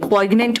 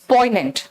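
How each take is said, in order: First: A g sound is heard before the n. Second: No g sound is heard before the n. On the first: The speaker calls it wrong. "पॉइग्नेंट मत बोलना" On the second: The speaker calls it right. "एन यहां silent है, it's पॉइनेंट"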